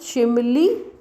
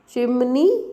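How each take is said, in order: First: The consonant before the last vowel is l. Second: The consonant before the last vowel is n. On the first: "that is with the change of n and l" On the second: "Chimney n"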